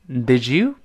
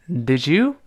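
No difference in how they are said.

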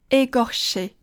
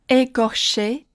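Both takes have the same delivery.

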